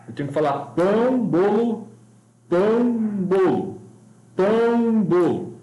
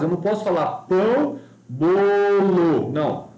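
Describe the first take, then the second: First: "pão, bolo" spaced evenly on the pulse; on the beat. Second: Wrong rhythm. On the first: Teacher showing the right way to fit pão and bolo to the pulse. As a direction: keep each "bolo" inside one beat. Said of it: "É assim que tem que funcionar". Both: Shown as a demonstration.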